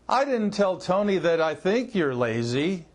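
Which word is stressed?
think. The stress falls on the word think. It is known, not merely thought, that you're lazy. "That I think you're lazy means I know you're lazy"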